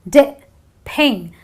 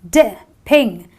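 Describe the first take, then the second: No difference in how they are said.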